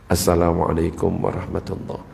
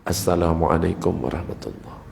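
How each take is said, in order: The two takes are said the same way.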